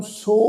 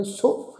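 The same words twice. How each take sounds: First: "ਸੋ" with the o drawn out long; long vowel. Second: "ਸੋ" short and light; short light vowel. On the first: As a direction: stretch the vowel in "ਸੋ". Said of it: "ਘੋੜੇ ਦੇ ਵਾਂਗੂ ਉਚਾਰਨ ਨਹੀਂ ਕਰਨਾ". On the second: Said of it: "ਬਸ ਹਲਕਾ ਜਿਹਾ ਉਚਾਰਨ ਹੋਵੇਗਾ". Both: Shown as a demonstration.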